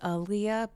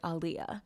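First: The name does not begin like 'Ali'. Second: The name begins like 'Ali'. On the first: The speaker calls it wrong. "I thought that it was [name]" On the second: The speaker calls it right. "she says that it's similar to Prince Ali, marvelous he, Ali. So it's like [name]"

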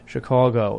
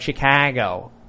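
First: It is said the way older city guys say it. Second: It is said in the stereotyped Chicago accent.

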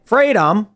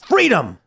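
First: The word is said flatly, with little energy. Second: The word is said with strong, passionate energy. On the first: The speaker calls it wrong. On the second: The speaker calls it right.

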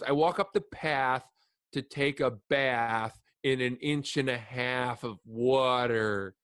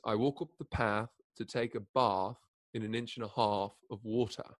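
First: It is spoken in an American accent. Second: It is spoken in a British accent. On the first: "impersonate American people" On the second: "if you Britishize it"

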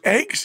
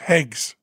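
First: The word is said plainly, without an h. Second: The word starts with an added h sound.

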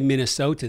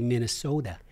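First: It is said in a plain general accent. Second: It is said in a strong Minnesotan accent. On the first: The speaker calls it wrong. "they don't say Minnesota" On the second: The speaker calls it right. "they say Minnesota"

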